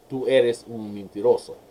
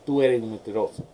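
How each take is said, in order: First: It is said in standard Spanish, s pronounced. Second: It is said Caribbean style, s dropped.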